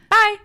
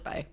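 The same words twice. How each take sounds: First: It is said in a normal voice. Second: It is said in a whisper.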